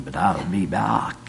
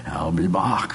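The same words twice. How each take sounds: First: Said in the usual way. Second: The promise fading away, whispered; whispered echo. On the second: Retold or imitated. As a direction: repeat it in a breathy whisper.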